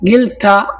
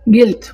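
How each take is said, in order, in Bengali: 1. শব্দটি স্বরধ্বনি দিয়ে শেষ হয়। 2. শব্দটি স্বরধ্বনি ছাড়া শেষ হয়। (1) "এটা থেকে যদি আমরা জাবারটা কেটে দেই শেষ হরফের" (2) "তাহলে কি হয়?"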